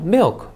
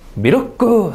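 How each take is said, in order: First: The word is said as one syllable. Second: The word is said as three syllables. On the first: "이름절" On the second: "삼음절 돼요. 잠깐 못 알아들어요"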